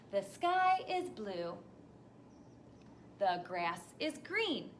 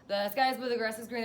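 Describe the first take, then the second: First: It stops fully after each sentence. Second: It runs on without stopping between sentences.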